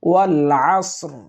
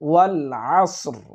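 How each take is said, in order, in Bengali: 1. শব্দগুচ্ছটি একটি হালকা, থামা র দিয়ে শেষ হয়। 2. শব্দগুচ্ছটি একটি হালকা, থামা র দিয়ে শেষ হয়।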